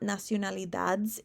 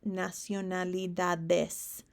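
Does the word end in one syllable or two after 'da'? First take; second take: one; two. First: The ending is squeezed into one syllable. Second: The ending is said as two syllables. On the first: The speaker calls it wrong. "It's not" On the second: The speaker calls it right. "It's a whole extra syllable"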